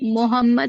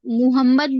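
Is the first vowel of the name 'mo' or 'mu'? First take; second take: mo; mu. First: The first syllable is said with an 'o' vowel. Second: The first syllable is said with a 'u' vowel. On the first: "M O लगा तो वो" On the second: "मीम पे पेश रहता तो अपन मुंह पढ़ते"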